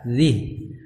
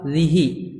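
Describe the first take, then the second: First: The word ends on a bare consonant. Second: The word ends with a short vowel. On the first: "sukun ya" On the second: "tidak panjang"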